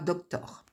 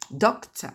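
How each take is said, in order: First: The final syllable has a full vowel. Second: The final syllable is reduced to a weak vowel. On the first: The speaker calls it wrong. "vous voyez qu'on ne dit pas doctor" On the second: The speaker calls it right.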